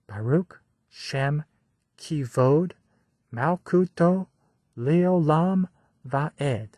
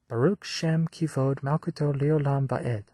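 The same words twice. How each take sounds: First: The line is recited slowly and deliberately. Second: The line is recited at a normal pace.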